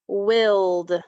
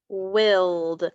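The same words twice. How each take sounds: The two takes are said the same way.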